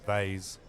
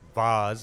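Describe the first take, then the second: First: It is said with an American pronunciation. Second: It is said with a non-American pronunciation. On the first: "instead of vase" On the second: "like we say vase"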